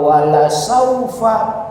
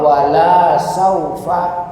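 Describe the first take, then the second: First: The vowel of 'la' is short. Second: The vowel of 'la' is drawn out long. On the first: It is a promise that something will surely be given. The speaker calls it right. "Kalau wala saufa pasti kami akan berikan" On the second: It says that something will not be given. The speaker calls it wrong. "Tapi kalau wala saufa kami tidak berikan, jauh"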